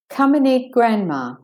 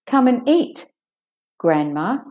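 First: It is said straight through with no pause. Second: There is a pause before the last word. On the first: The grandmother is the one being eaten. "with the closed juncture, where you don't make the pause or the stoppage" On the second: The grandmother is invited to come and eat. "And with the pause"

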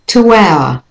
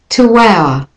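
First: The words are joined by a linking w sound. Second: The same.

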